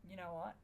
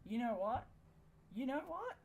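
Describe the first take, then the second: First: Said in the usual way. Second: Each repeat more outraged, up to a shout; rising exasperated yell. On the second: Real, not acted. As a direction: voice climbing higher and louder, fed up. Building frustration at game.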